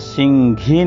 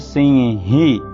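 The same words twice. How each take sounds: First: The middle consonant sounds like 'gh'. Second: The middle consonant sounds like plain 'h'. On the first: The speaker calls it wrong. "यहाँ सिंही नहीं बोलेंगे, घा जो बोलते हैं गलत है" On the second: The speaker calls it right. "शुद्ध उच्चारण सिंही ही होना"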